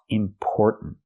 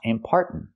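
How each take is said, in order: First: The second syllable has the vowel of store. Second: The second syllable has the vowel of car. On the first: The speaker calls it right. "but or like store and more" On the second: The speaker calls it wrong. "Not are like car and far"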